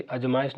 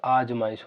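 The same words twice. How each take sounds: First: "अजमाइश" with a short opening a; wrong pronunciation. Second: "आजमाइश" with a long opening aa; correct pronunciation. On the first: Teacher corrects own slip for students, wrong short-vowel pronunciation. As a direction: open "अजमाइश" on a quick, short a. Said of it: "sorry, अजमाइश नहीं होता". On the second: Teacher corrects own slip for students, right long-vowel pronunciation. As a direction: stretch the first aa of "आजमाइश". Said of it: "आजमाइश होता है". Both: Shown as a demonstration.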